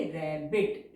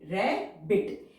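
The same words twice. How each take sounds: First: Said in the usual way. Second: rabbit stretched very slowly, syllable by syllable; slow drawn-out rabbit. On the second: Shown as a demonstration. Teacher says rabbit slowly while drawing its outline. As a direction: draw out rabbit so students can follow the strokes. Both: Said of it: "जैसे हम इसे बनाएंगे".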